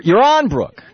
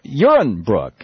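First: "Uran" with a long, high stressed RON; trial pronunciation. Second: "Uren" with stress on the first syllable; trial pronunciation. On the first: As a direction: try "Uran" slowly as yuh-RON, second syllable stressed. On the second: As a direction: try "Uren" as YUR-un, weak second vowel. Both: Shown as a demonstration. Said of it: "how do I pronounce that".

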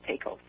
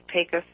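First: Pecos said PAY-kohs, with a full long O; outsider's pronunciation. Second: Pecos said PAY-kus, unstressed second syllable; local pronunciation. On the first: Showing how an outsider says it, mispronounced Pecos. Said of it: "not Pecos". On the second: Correcting an outsider's Pecos, local pronunciation. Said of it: "the correct pronunciation is". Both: Shown as a demonstration.

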